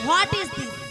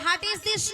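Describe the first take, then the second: First: The first word sounds like 'what'. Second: The first word sounds like 'hat'. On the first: The speaker calls it right. "বলো" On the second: The speaker calls it wrong. "ওটা হাট is this নয়"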